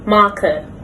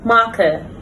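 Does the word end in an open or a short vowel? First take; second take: short; short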